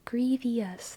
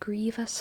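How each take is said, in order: First: The word is said with three syllables. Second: The word is said with two syllables. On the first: The speaker calls it wrong. "They just add an I in there" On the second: The speaker calls it right. "is how it's supposed to be said in church"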